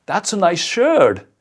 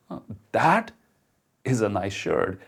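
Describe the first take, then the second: First: High, loud, slow mocking compliment; sarcastic compliment. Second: Genuine, stressing is, with a pause after that; mean it, a small hesitation then warm stress on is; sincere compliment. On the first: Showing how tone changes a compliment, sarcastic. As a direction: drag it out with heavy sarcasm. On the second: Showing how tone changes a compliment, sincere. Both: Shown as a demonstration. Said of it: "the same words, and yet they sound so different".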